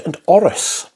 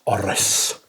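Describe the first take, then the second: First: Said in the usual way. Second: A sudden hushed "Orris." to oneself; odd whispered echo. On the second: Real, not acted. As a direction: whisper "Orris." breathily, softer and lower. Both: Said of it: "Don't know why I said it like that".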